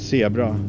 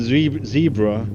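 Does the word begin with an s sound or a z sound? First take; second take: s sound; z sound. First: The word begins with a hissing s sound. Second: The word begins with a buzzing z sound.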